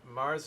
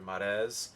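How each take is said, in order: First: The name is said with an American pronunciation. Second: The name is said with a non-American pronunciation. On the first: The speaker calls it wrong. "the layman's like American pronunciation" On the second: The speaker calls it right. "It's actually Marez"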